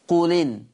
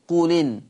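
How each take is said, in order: First: The glottal stop is dropped, joining the words. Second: The same.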